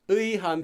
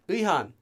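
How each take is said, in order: First: The word is pronounced in full, carefully. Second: The word is pronounced loosely, as in conversation. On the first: The speaker calls it wrong. "Now I'm saying this 의한. People don't say 의한 when they talk" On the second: The speaker calls it right. "Almost like that"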